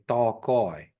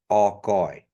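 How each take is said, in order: First: The word begins with a t sound. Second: The word begins with a vowel sound. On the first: The speaker calls it wrong. "people mispronounce it. They say ta goy" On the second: The speaker calls it right. "Not da goy"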